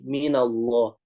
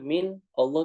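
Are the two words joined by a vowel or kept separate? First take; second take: joined; separate. First: A vowel links the two words into one. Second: The two words are kept apart with no linking vowel. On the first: The speaker calls it right. "makanya jadi minallah seperti itu" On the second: The speaker calls it wrong. "min Allah tuh susah"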